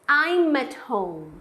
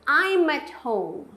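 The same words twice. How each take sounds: Both takes have the same delivery.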